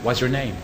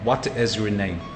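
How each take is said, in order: First: It is said fast with the T dropped. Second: The T in 'what' is clearly pronounced. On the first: "how can I speak it like very fast?" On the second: "If I want to pronounce the T"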